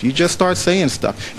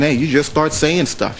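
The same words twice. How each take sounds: First: Slow emphatic repeat. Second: Said in the usual way. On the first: Shown as a demonstration. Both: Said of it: "repeats phrase for emphasis".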